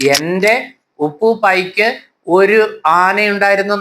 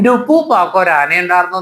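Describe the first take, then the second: First: The words are said in full, uncontracted. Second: The words are run together in contracted form. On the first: The speaker calls it wrong. "എന്നല്ല" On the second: The speaker calls it right. "എന്നാണ് ആ പുസ്തകത്തിന്റെ പേര്"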